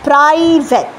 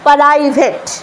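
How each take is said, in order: First: The p and r are joined without a vowel. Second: A short vowel is inserted between p and r. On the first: The speaker calls it right. "এটা হচ্ছে correct উচ্চারণ" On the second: The speaker calls it wrong. "আ sound দিলেই সেটা পরাই হয়ে যাচ্ছে"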